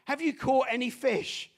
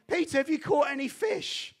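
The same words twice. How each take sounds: First: Said in the usual way. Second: Stranger's voice. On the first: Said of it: "someone on the shore who says". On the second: Retold or imitated. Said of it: "and says to him".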